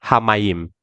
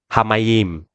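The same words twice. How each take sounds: No difference in how they are said.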